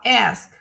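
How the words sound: It is said in an American accent.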